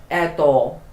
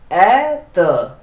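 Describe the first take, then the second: First: "Etho" with a full O at the end; pronounced as written. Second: "ether" drawn out slowly, reduced final vowel; pronounced as spoken. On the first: Teacher showing beginners the spelling of the word, letter-by-letter reading. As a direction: read "Etho" by its spelling, clear final O. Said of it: "But it is written what?". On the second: Teacher showing beginners how the Russian word is pronounced, slow demonstration. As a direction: say "ether" with a long stressed first vowel, weak ending. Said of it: "how do you pronounce this word". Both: Shown as a demonstration.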